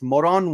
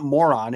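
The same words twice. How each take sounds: First: It is said with a put-on foreign accent. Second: It is said with a plain American pronunciation. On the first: The speaker calls it right. "I have to say it with an accent" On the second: The speaker calls it wrong. "it's not Moron"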